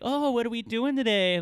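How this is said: It is said in an exaggerated, playful tone. She was trying too hard to be funny. "she even said it like this too"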